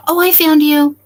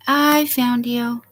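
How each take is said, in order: First: Higher, louder happy exclamation; delighted discovery. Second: Slow gentle repeat. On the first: Streamer finds her guest in the basement, delighted. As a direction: burst out with relief at finding her. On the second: Streamer repeats to her guest, slow and gentle. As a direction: savour it, settling down. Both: Real, not acted.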